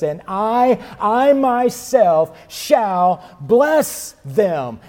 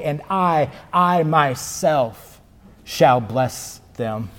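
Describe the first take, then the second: First: Slow, high, emphatic I myself; higher, slower declaration of I myself; exclamatory. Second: Slow, weighty I, I myself; repeated I drawn out slowly; emphatic I. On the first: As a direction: proclaim it with exclamation points. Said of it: "Exclamation point, exclamation point". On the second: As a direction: lean hard on I and myself. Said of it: "so we might accurately say". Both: Shown as a demonstration.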